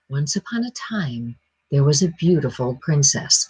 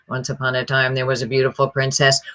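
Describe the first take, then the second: First: The pitch varies a little, not much. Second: The pitch stays almost completely flat. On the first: The speaker calls it right. "you're not using a lot of pitch, but just enough" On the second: The speaker calls it wrong. "which is hardly any pitch at all"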